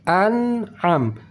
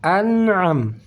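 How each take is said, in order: The two takes are said the same way.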